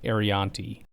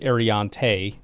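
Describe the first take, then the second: First: The name is said like Arianti. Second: The name is said like Ariante. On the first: The speaker calls it wrong. "not Arianti" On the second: The speaker calls it right. "it's Ariante"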